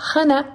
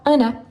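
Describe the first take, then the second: First: The name starts with an audible H sound. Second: The name starts directly with the vowel. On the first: This is the English way of saying the name. "en anglais, on dit Hannah" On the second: This follows French rules with a silent H. "et pas Anna"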